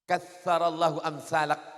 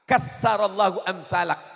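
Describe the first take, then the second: First: The consonant after the first vowel is th. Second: The consonant after the first vowel is s. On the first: May God multiply people like you. The speaker calls it right. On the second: May God destroy people like you. The speaker calls it wrong.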